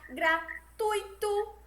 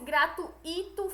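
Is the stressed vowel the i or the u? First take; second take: u; i. First: The stress falls on the u. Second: The stress falls on the i. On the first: The speaker calls it right. "o certo é pronunciar gratuito" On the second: The speaker calls it wrong. "e não no I, como se fosse gratuito"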